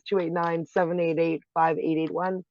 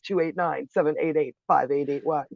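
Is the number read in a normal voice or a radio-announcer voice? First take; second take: normal; radio-announcer. First: The number is read in a normal speaking voice. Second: The number is read in a radio-announcer voice.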